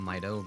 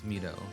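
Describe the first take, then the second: First: The name is said with an English pronunciation. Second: The name is said with a Japanese pronunciation. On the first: "I always called his name Mido" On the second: "if you do Japanese pronunciations, it's Mido"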